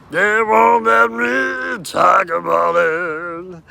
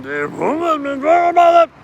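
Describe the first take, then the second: First: Drawn-out, louder, half-sung complaint; slow mock shout. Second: Much higher, thin and quick; squeaky mock voice. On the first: Complaining to the camera about being silenced, slow shout. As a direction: stretch every word and belt it. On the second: Complaining to the camera about being silenced, high squeak. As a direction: whine it up high like a cartoon. High far take before the shout.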